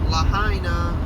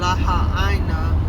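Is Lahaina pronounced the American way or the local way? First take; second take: American; local. First: It is pronounced the American way. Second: It is pronounced the local Hawaiian way. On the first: "We say Lahaina" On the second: "instead of Lahaina"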